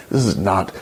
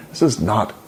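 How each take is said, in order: Both takes have the same delivery.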